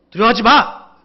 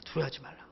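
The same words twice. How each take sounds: First: Loud, raised, abrupt command; stern scolding. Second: Very soft, low delivery; gentle, soft words. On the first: The Lord commanding his people not to fear, stern. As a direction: order it sternly, as a reprimand. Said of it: "약간 꾸짖는". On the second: The Lord's words taken as kindly advice, soft. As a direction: murmur it mildly, without force. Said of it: "좋은 말 부드럽게 하시는". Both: Acted.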